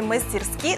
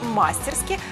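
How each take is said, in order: First: The stress is on the last syllable. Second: The stress is on the first syllable. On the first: This is the traditional standard form. The speaker calls it right. "отдает предпочтение традиционной норме «мастерски»" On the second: This is a colloquial form. The speaker calls it wrong. "сопровождая вариант «мастерски» пометкой «разговорное»"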